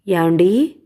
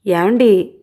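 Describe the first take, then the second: First: Gently calling her husband's name; soft call. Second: Calling his name a little more firmly; louder call. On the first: Wife softly calls her sulking husband, tender call. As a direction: call him softly, coaxing. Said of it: "మృదువుగా పిలిచింది". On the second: Wife calls her sulking husband again, a bit louder. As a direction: raise the call a notch to wake him. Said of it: "ఈసారి మరి కాస్త గట్టిగా పిలిచింది". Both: A narrator's reading.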